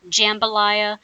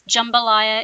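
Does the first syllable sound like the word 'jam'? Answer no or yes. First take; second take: yes; no. First: The first syllable sounds like the word 'jam'. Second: The first syllable does not sound like 'jam'. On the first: The speaker calls it wrong. "It's not jambalaya. Uh, please don't say that. It's not made out of jam" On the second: The speaker calls it right. "Jambalaya is the pronunciation for this dish"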